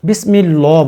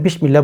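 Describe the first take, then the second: First: The first syllable has an 's' sound. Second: The first syllable has an 'sh' sound. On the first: The speaker calls it right. "বিশ বলবেন না, বিসমিল্লাহ বলবেন" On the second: The speaker calls it wrong. "বিসমিল্লাহ বলবেন না"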